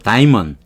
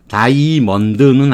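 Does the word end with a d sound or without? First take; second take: without d; with d. First: The word ends without a d sound. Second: The word ends with a clear d sound. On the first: The speaker calls it right. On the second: The speaker calls it wrong. "다이먼드는 아니고"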